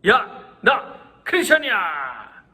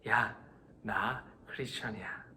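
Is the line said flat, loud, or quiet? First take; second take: loud; quiet. First: It is said in a loud voice. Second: It is said in a quiet voice.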